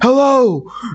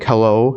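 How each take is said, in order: First: It is said in a frustrated, forceful tone. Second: It is said in a calm, even tone.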